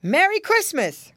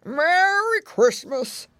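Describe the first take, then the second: First: High, loud, hearty call; cried greeting. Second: Put-on slow, slurry old pig character; high, drawn-out grandpa greeting; another voice crying out. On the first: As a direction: visitor hailing the house from the door. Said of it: "cried a voice at the door". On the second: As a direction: roll it out slowly as an old pig. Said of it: "cried another voice". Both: A narrator's reading.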